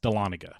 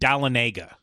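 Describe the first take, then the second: First: The name is said the local way. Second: The name is said in a nonstandard way. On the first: This is how locals say it. The speaker calls it right. "No, it's Dahlonega" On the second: This is how the navigation system says it. The speaker calls it wrong. "Everything's like Dahlonega"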